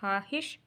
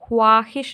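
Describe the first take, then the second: First: No w sound follows the first consonant. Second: A w sound follows the first consonant. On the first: The speaker calls it right. "हम बोलेंगे हाहिश" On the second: The speaker calls it wrong. "ख्वाहिश नहीं बोलेंगे"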